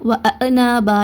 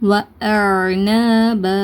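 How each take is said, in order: First: The middle sound bounces with an echoing release. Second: The middle sound is held in the throat, then released. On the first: The speaker calls it wrong. "இந்த மாதிரி கல்கலா செஞ்சும் உச்சரிக்கக்கூடாது" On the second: The speaker calls it right. "தொண்டையில் கொஞ்சம் நேரம் பிடிச்சி வச்சுட்டு அதுக்கப்புறம் ரிலீஸ் பண்ணுங்கள். வ ந ப இந்த மாதிரி உச்சரிங்க"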